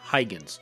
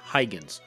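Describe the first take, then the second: First: The name has an English pronunciation. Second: The name has an English pronunciation.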